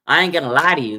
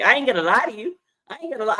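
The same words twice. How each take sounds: First: Louder, emphatic read of his line; firm, loud quote of the player; quoted catchphrase. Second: Much higher, playful imitation of the player; playful higher mimic of the catchphrase; mimicking his catchphrase. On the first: Retold or imitated. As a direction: lean into the catchphrase. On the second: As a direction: echo his signature line, amused. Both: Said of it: "that's his saying".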